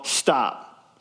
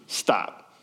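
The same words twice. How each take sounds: First: Said in the usual way. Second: Low, breathy, clipped "Stop."; curt hushed stop. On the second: Shown as a demonstration. Samuel cutting Saul off, hushed and curt. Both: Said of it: "that text message ... just says".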